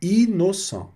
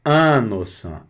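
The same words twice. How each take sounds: First: Innocent begun with a clear oral i, letters separate. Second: Innocent begun with a nasal an sound; nasal wrong take. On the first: Teacher correcting students to the right innocent, raised. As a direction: innocent with open i, not nasal. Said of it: "não, é innocent". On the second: Teacher showing students the nasal mistake in innocent. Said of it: "não vou falar innocent". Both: Shown as a demonstration.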